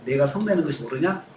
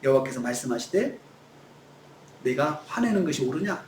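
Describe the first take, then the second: First: Low, even, gentle question; calm question. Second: Calm question. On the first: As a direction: ask it calmly, no anger. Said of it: "차분하게 하나님께서". (하나님이 요나에게 차분하고 낮게 묻듯) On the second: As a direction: ask gently, not scolding. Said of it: "근데 그렇게 안 하세요". (요나에게 부드럽고 낮게 되묻듯) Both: Shown as a demonstration.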